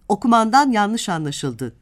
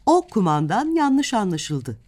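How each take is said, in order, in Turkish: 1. 'o' doğrudan sonraki kelimeye bağlanır: 'okumandan'. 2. 'o' ile 'kumandan' arasında kısa bir duraklama vardır. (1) "birinin yanlış okumasından söz etmiş oluruz" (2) "kumandanın yaptığı herhangi bir şeyin yanlış anlaşıldığı söyleniyor"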